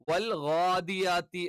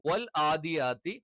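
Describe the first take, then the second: First: The first sound is an exaggerated gh sound. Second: The first sound is a plain open vowel. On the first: "over ആക്കിയിട്ട് ... തെറ്റാണ്" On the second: "ആ എന്നുള്ള ഉച്ചാരണമായിട്ട് ... ഇത് തെറ്റാണ്"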